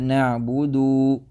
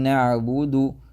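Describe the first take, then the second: First: The vowel after the d is drawn long. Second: The vowel after the d is short. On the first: The speaker calls it wrong. "It's a dhamma with a mad after it" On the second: The speaker calls it right. "instead of saying"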